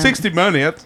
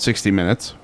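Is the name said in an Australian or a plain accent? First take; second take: Australian; plain. First: It is said in a put-on Australian accent. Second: It is said in the speaker's ordinary accent. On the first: "That was perfect" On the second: "You were supposed to say it in an Australian accent"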